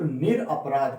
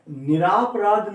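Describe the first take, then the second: First: निरपराध with a short a, nir-a-paraadh, said plainly; निरपराध said calmly as the correct spelling; correct form. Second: निरापराध with a long aa after nir, slowed and raised as the wrong form; निरापराध pronounced nir-aa-paraadh, marked wrong; wrong spelling said. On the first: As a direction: settle on निरपराध as the right version. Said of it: "सिर्फ". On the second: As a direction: stress निरापराध as the incorrect version, drawn out. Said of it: "नहीं". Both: Shown as a demonstration.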